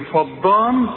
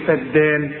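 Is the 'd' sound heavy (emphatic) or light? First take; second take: heavy; light. First: The d sound is heavy and emphatic. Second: The d sound is light and thin. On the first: The speaker calls it wrong. "هتقول لي ايه فضان" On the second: The speaker calls it right. "هتقول فدان"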